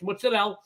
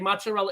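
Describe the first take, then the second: First: It is said with an Italian-style pronunciation. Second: It is said with a plain American pronunciation. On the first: The speaker calls it right. "It's mozzarella" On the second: The speaker calls it wrong. "You want to lose a date with an Italian? Say mozzarella"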